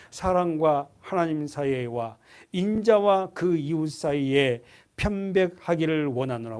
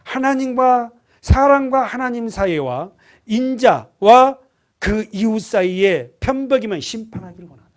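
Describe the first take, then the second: First: Slow, even reading of the verse; slow scripture reading. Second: "사랑과" pushed out loud and slow, rising at the end; emphatic rereading. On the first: Preacher reading the verse to the congregation slowly. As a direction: read it out steadily, word by word. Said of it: "이십일 절에 한 번 더 동그라미 쳐놓고 보세요". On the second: Preacher rereading the verse to the congregation, emphatic and loud. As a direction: drive each word home, loud and slow. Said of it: "원하노라 동그라미 쳐보세요". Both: Shown as a demonstration.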